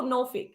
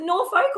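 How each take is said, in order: First: "Norfolk" with short, weak second syllable; reduced second syllable. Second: "Norfolk" with second syllable like "folk"; full second syllable. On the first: Host asks local guest about the name, clipped "fick" ending in "Norfolk". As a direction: say "Norfolk" as NOR-fick, no long o. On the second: Host asks local guest about the name, full "folk" in "Norfolk". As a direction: say "Norfolk" as NOR-foke, full long o. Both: Shown as a demonstration. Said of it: "Is it Norfolk or Norfolk?".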